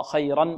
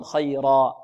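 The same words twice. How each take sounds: First: "خيرا" said khayran, with final n; tanween sounded. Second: "خيرا" said khayraa, long open ending; alif at pause. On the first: Teacher contrasts running on with stopping, "خيرا" ending in -an. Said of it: "ولما كان التنوين في الوقف". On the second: Teacher shows the stopped form, "خيرا" ending in long aa. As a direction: drop the n of "خيرا" and lengthen the vowel. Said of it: "يقلب ألفا". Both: Shown as a demonstration.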